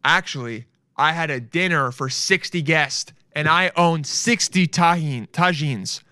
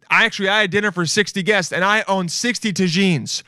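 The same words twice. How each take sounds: First: Said in the usual way. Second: Higher-pitched, faster, excited quote; hyped-up rereading. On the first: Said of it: "Here we go". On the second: Retold or imitated. Fan repeating Martha's reply, hyped-up boast. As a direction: rattle it off as a proud boast. Re-reads response, now hyped up.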